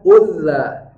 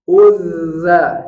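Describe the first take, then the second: First: The middle consonant is said short, not doubled. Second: The middle consonant is held double length. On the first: The speaker calls it wrong. "Jangan, nanti tidak terpenuhi hak dari tasdidnya" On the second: The speaker calls it right. "Bunyi sukunnya harus keluar dua kali lipat"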